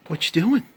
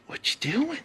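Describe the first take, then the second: First: Higher, rising pet-voice question; a higher cooing "What you doing?" for the cat. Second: Much higher and softer squeaky coo; a tiny high, soft "What you doing?" for the cat. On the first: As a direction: coo up at him playfully. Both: Real, not acted.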